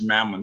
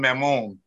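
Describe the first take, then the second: First: The name is said with an English pronunciation. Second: The name is said with a French pronunciation. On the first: "It's probably pronounced Mammon" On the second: "that would be the way you pronounce it in French"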